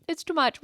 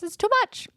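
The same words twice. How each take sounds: First: Said in the usual way. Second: "It's too much" pitched much higher with a rising whine; high exaggerated whine. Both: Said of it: "And I'm like".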